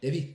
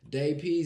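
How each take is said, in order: First: It is said very fast. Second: It is said fast.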